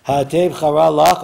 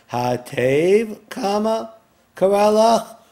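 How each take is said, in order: First: Said in the usual way. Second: "Ha'atev" rising, pause, then "kara lach" high and loud; Ha'atev set apart, kara lach punched; pause after Ha'atev. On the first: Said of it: "Or you can translate it". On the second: Shown as a demonstration. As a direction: break the phrase at "Ha'atev" like a comma. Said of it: "depending on where you put the comma".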